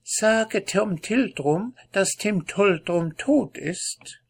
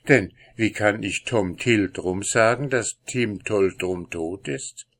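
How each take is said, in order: First: High, slow squeaky cat voice; tiny critter. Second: Said in the usual way. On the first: Acted. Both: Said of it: "mit quiekender Stimme".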